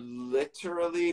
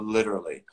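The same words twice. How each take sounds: First: The middle consonant is a clear T. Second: The middle consonant is a voiced D. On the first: The speaker calls it wrong. "probably not that with the T as a T" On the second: The speaker calls it right. "So we make that T into a D because it's easier"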